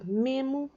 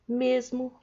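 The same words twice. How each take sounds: First: Memo, said with the s dropped, São Paulo way. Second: Mesmo, with a clear s before the m; mesmo as written. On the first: Teacher showing the São Paulo way to students, memo with no s. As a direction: drop the s in memo like a paulistano. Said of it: "em São Paulo vai ter gente que fala memo". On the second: Teacher giving the written form after memo, s said clearly. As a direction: say mesmo with its full s. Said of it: "e a escrita é a mesma". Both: Shown as a demonstration.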